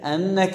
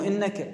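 First: The first vowel is an a sound. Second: The first vowel is an i sound. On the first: The speaker calls it right. "تذكرون كسر همزة وفتحها؟" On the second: The speaker calls it wrong. "مو إنك"

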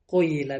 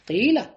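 First: The first vowel is rounded toward u. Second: The first vowel is a plain, unrounded i.

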